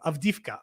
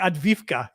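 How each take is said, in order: First: The v sound comes before the d sound. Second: The d sound comes before the v sound. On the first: The speaker calls it right. "There you go" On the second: The speaker calls it wrong. "I was mixing the V and the D"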